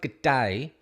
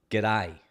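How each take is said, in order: First: "g'day" said the wrong way, two drawn-out syllables "good day"; the version not to use, "g'day" said slowly in full. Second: "g'day" said lower and run together as one word, "day" with a long A; the right Australian way, "g'day" slurred into one sound; proper Aussie g'day. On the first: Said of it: "you don't say g'day". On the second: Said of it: "Like the first letter of the alphabet". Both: Shown as a demonstration.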